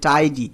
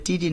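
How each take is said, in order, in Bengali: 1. প্রথম স্বরধ্বনিটি 'eye' এর মতো শোনায়। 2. প্রথম স্বরধ্বনিটি 'ee' এর মতো শোনায়। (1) "হবে টাইডি" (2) "এটা টিডি না"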